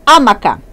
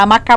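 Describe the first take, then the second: First: Amaca with stress on the first "a", like an esdrúxula; stress first syllable. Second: Amacá with stress on the final "cá"; stress last syllable. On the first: Teacher contrasts two pronunciations for students, amaca with stress on the first "a". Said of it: "Se eu pronunciar". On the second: Teacher contrasts two pronunciations for students, amacá with stress on the final "cá". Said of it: "Se você pronunciar amacá". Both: Shown as a demonstration.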